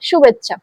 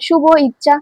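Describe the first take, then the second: First: The two words merge into one word. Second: The two words are said separately, unmerged. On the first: The speaker calls it right. "এটা হচ্ছে আমাদের উচ্চারণ করতে হবে" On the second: The speaker calls it wrong. "এটাকে এইভাবে শুভ ইচ্ছা এরকম এরকম বলতে পারবো না"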